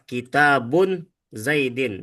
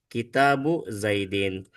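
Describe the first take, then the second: First: The first word ends with an n sound. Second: The first word ends without an n sound. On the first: The speaker calls it wrong. "Ya salah" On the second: The speaker calls it right. "maka karena dia sekarang menjadi mudof, menjadi sandaran, maka tanwinnya hilang"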